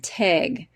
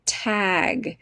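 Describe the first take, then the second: First: "teg" for tag, vowel raised to short E; regional pronunciation. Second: "tag" with a short open A, as in cat; standard pronunciation. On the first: Retold or imitated. Parent imitating oldest child's regional pronunciation, "teg" for tag. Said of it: "She says beg". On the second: Shown as a demonstration. Teacher showing her own pronunciation, "tag" with open A. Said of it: "our, our pronunciation is".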